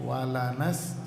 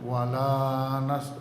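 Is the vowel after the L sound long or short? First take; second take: short; long. First: The vowel after the L is short. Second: The vowel after the L is drawn out long. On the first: The speaker calls it right. "Ini bacanya pendek" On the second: The speaker calls it wrong. "jangan walanas, enggak boleh"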